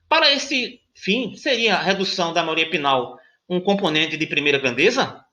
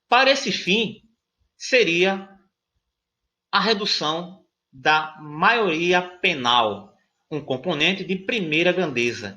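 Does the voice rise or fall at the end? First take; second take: rises; falls. First: It is read as a question, rising. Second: It is read as a statement, falling.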